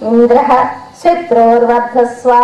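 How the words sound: The words are split apart with a break. "ఊనిక Indra శత్రువర్ధస్వ అని విడదీస్తే ఒక అర్థం"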